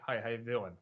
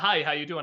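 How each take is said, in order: First: The words run together, slurred like Butthead. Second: The words are said clearly and separately.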